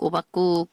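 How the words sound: It sounds like the Korean word for pumpkin porridge. It names a watery zucchini rice porridge. The speaker calls it wrong. "Antes no podía pronunciar bien Habacuc, entonces yo le decía"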